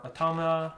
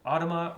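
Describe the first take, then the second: First: Automa stressed on the middle syllable, uh-TAH-muh; second pronunciation variant. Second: Automa stressed on the first syllable, AW-tuh-muh; first pronunciation variant. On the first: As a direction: say Automa as uh-TOM-uh. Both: Shown as a demonstration. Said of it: "never sure how to pronounce that".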